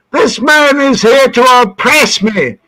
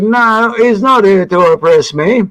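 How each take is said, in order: First: High, declaimed accusation; son's protest. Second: Said in the usual way. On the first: Retold or imitated. Son accuses cop in front of dad, declaimed protest. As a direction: proclaim the grievance as the indignant son. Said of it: "And my son said". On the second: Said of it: "And I said".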